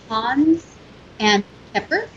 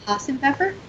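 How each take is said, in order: First: The words are said separately at normal pace. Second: The words are said fast and run together.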